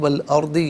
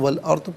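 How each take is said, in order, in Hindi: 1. शब्द छोटी 'i' स्वर पर खत्म होता है। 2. शब्द व्यंजन पर खत्म होता है, स्वर लोप हो जाता है।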